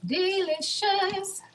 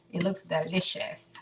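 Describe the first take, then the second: First: High, slow, stretched-out DELICIOUS; drawn-out singsong. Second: Said in the usual way. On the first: Pretend. Repeats the word playfully drawn out.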